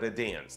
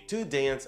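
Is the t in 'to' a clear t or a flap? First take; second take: flap; clear t. First: The t in 'to' is a soft flap. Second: The t in 'to' is a clear t. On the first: "а to dance. Там используется flap t" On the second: "Не to dance"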